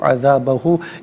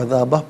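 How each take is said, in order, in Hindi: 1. शब्द का अंत पूरे अंतिम स्वर से होता है। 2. शब्द का अंत कटी हुई ध्वनि से होता है, अंतिम स्वर के बिना।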